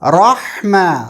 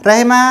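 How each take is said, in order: First: The r sound is heavy and full. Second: The r sound is light and thin. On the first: The speaker calls it right. "रा मोटा है क्योंकि इसके ऊपर ज़बर है" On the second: The speaker calls it wrong. "रहमा नहीं"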